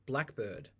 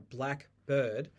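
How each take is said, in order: First: The stress falls on black. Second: The stress falls on bird. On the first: One specific species of bird.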